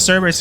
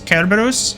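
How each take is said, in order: First: The word begins with a soft S sound. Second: The word begins with a hard K sound. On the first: "I say Cerberus because it doesn't sound as stupid and dumb" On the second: "the correct pronunciation of Cerberus is Kerberos"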